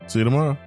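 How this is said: It is said in the speaker's natural voice.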